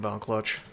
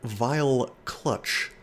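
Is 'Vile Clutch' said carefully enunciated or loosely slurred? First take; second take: loosely slurred; carefully enunciated. First: The words are said loosely, with an accent. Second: The words are said carefully and clearly enunciated. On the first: The speaker calls it wrong. "I can't mispronounce" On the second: The speaker calls it right. "it's good to enunciate"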